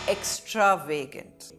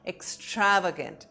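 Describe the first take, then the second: First: The stress is on another syllable. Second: The stress is on the second syllable. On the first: The speaker calls it wrong. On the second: The speaker calls it right. "The focus is on the second syllable stra"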